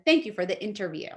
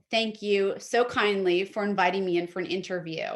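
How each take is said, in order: First: Quick, offhand thank you; plain thank you. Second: Warm, gracious sample line; gracious thank you. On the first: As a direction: toss it off quickly. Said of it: "rather than". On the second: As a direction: thank them with real grace. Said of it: "something emotive". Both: Shown as a demonstration.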